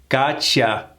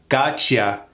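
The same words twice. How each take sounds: First: The words blend into one reduced word. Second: The words blend into one reduced word.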